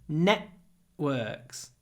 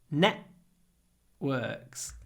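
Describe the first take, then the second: Both takes have the same delivery.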